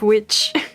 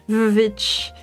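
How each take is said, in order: First: The word begins with a W sound. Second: The word begins with a V sound. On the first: "instead of witch" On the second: "the double V instead of a W"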